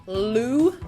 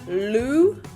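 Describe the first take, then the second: First: The tongue flicks hard for a strong L. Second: The tongue flicks hard for a strong L.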